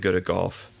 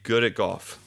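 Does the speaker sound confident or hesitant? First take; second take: hesitant; confident. First: The voice sounds unsure and half-hearted. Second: The voice sounds firm and assured. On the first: The speaker does not really believe it. The speaker calls it wrong. "oh yeah, well" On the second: The speaker believes it. The speaker calls it right. "you have to say it with conviction"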